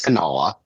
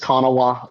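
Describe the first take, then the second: First: The name is said in a local regional pronunciation. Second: The name is said in its standard pronunciation. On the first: Only people from the area say it this way. "me being the hick that I am and where I've lived all my life, it is Kanawha" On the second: This is the official way to say the name. "real real pronunciation is Kanawha"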